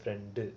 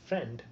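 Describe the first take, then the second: First: The word ends with an added u vowel. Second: The word ends on the consonant d. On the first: "you would say ஃப்ரெண்டு" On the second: "instead of saying just friend"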